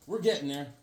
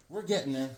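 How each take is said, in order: Both takes have the same delivery.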